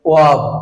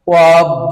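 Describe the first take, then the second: First: The word ends with a v sound. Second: The same.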